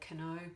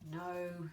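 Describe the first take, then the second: First: A k sound is heard at the start. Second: The k is silent and not heard. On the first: The speaker calls it wrong. "we actually don't say cano" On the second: The speaker calls it right. "words like no"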